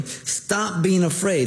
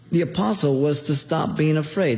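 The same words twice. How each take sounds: First: "being" stretched, slow and raised; slow emphatic stop being afraid. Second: Said in the usual way. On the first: Shown as a demonstration. Preacher translating the Greek for the congregation, slow and stressed.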